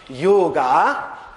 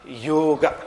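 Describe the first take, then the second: First: The word ends in a long a sound. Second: The word ends in a short a sound. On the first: The speaker calls it wrong. "will not pronounce it as yoga" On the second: The speaker calls it right. "with a short A at the end"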